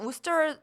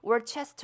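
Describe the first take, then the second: First: It is said in two short syllables, like Wooster. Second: It is said with every letter, like Wor-chester. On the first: The speaker calls it right. "우스터이라고 발음을 해야 합니다" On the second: The speaker calls it wrong. "마치 월체스터 뭐 이런 식으로 발음이 될 것 같지만 그렇게 발음이 되지 않고요"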